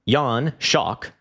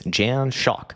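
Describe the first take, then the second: First: The name is pronounced in a European style. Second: The name is pronounced in an American style. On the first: "I'm pronouncing it in like the Europore way" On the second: "if I'm pronouncing it in the American way"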